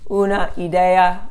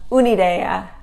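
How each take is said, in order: First: The final A of una is fully pronounced. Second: The final A is dropped and the words run together. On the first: The speaker calls it wrong. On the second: The speaker calls it right.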